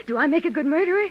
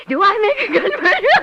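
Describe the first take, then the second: First: Said in the usual way. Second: Higher and louder, laughing through the words; unhinged laughing question. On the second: Acted. Repeats it, breaking into laughter.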